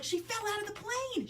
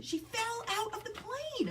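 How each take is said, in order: First: Put-on high little girl's wail of She fell out of the plane; child voice, first take. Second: High and slow, each word of She fell out of the plane stretched; child voice, drawn out. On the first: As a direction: say it high like an upset four-year-old. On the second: Retold or imitated. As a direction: drag it out like a sobbing little girl. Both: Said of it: "And she's like".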